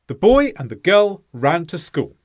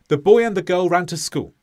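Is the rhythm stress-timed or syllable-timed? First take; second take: stress-timed; syllable-timed. First: Stressed words are louder, evenly spaced beats. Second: Every syllable gets an equal amount of time. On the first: "there is an equal time between the stressed sounds" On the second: "Every single sound had the same amount of time"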